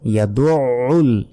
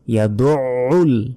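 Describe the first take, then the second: Both takes have the same delivery.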